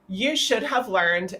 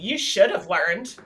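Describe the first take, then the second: First: It is said in a plain, neutral tone. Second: It is said in a snarky, sarcastic tone.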